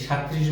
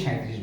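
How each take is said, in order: First: সাঁইত্রিশ as "shat-trish"; wrong form without glide. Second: সাঁইত্রিশ as "shai-trish", low-pitched; correct glide form. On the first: Teacher contrasting faulty সাঁইত্রিশ, shat-trish without glide. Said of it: "বলবো না". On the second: Teacher telling learners the right সাঁইত্রিশ, shai-trish with glide. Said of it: "অবশ্যই সাঁইত্রিশ বলবো". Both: Shown as a demonstration.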